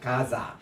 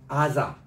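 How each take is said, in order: First: The word begins with a g sound. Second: The word begins with a vowel. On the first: This is the Arabic reading of the name. "가자라고 발음하고 적는 이것은 아랍식이에요" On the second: This is the Hebrew reading of the name. "유대인들은 이거를 아자라고 읽어요"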